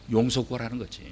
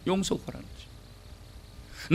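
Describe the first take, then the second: First: Said in the usual way. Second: Slow, soft unvoiced whisper; whispered repeat. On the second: Shown as a demonstration. Preacher repeating the point to the congregation in a slow whisper.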